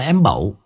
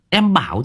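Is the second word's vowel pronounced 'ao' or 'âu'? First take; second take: âu; ao. First: The second word has a rural 'âu' vowel. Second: The second word has the standard 'ao' vowel. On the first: It is how old village people said it. "Em bẩu ở quê ngày xưa là người ta bảo, người ta gọi như thế" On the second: It is the standard form. "Em bảo chứ"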